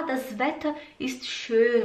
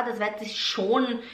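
First: "schön" with a rounded, fronted ö, drawn out; slow model phrase, clear umlaut in "schön"; correct pronunciation. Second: "schon" with a plain back o, no umlaut; mispronunciation. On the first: Teacher models the sentence for students, correct ö in "schön". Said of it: "Em vez de você falar". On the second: Teacher mimics a learner's error, saying "schon" with plain o. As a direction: flatten the ö so it becomes "schon". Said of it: "você fala". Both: Shown as a demonstration.

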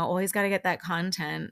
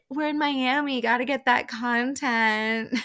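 First: Said in the usual way. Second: Imitating castmates. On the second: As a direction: parody their content catchphrase, pitched up and slowing. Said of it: "Like, they even said that".

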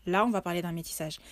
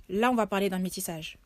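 No difference in how they are said.

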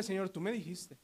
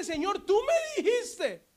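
First: Quiet reproach. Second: High, slow plea with a laugh in it; Moses pleading. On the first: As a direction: say it under your breath to God. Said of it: "qué difícil es decirle". (reproche en voz baja) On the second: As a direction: plead with God, half laughing. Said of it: "Moisés le dice". (Moisés suplicando agudo y lento, riendo) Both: Acted.

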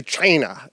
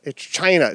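First: Mild Trump China, lightly imitated; a hint of Trump saying China; half-hearted Trump voice; Trump impression. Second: Said in the usual way. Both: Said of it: "or as Trump would say".

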